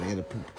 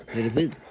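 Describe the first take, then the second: First: Said in the usual way. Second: Louder, rising on poop; louder insistent repeat with poop rising; excited repeat. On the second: Pretend. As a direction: push it out, rising at the end. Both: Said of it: "repeated line".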